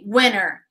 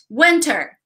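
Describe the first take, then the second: First: The t sound after the n is dropped. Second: The t sound after the n is clearly pronounced. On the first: "They say winner" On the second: "Repeat, winter"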